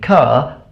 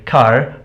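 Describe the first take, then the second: First: The final R is dropped. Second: The final R is pronounced. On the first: "people in England, they say" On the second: "Whereas people in America, they say"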